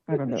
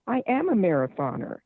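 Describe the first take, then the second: First: It sounds half-hearted and unconvinced. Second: It sounds sincere and convinced. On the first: The speaker does not believe the claim. The speaker calls it wrong. "Listen to how you say it. You don't mean you're a marathoner" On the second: The speaker truly believes the claim. The speaker calls it right. "I realized, oh my gosh"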